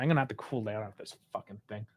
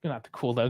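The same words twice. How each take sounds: First: Much lower and softer, muttered to himself; quiet fuming aside; low muttering. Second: Said in the usual way. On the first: Real, not acted. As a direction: grumble it under your breath. Fuming over a bad result.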